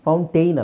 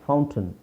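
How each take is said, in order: First: The last syllable sounds like 'tain'. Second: The last syllable sounds like a short 'tun'. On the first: The speaker calls it wrong. "ಫೌಂಟೈನ್ ಅಲ್ಲ" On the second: The speaker calls it right.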